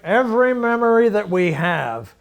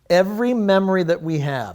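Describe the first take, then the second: First: It is said in an imitated, put-on voice. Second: It is said in the speaker's normal voice.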